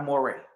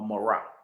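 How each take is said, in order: First: The word ends with an 'ay' vowel. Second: The word ends with an 'ah' vowel. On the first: The speaker calls it wrong. "not a Moray" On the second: The speaker calls it right. "you'll be a Morah, not a Moray, a Morah"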